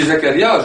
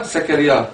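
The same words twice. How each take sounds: First: "Zakaria" starting with a buzzing voiced z. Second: "Zakaria" said as "Sakaria", a voiceless hiss; wrong with S. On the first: Teacher giving the correct way to say the name, voiced z. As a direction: say "Zakaria" with a clear z, tongue between the teeth. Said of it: "Je dis Zakaria". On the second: Teacher showing the mistake to avoid, hissed s. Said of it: "je dis pas Zakaria". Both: Shown as a demonstration.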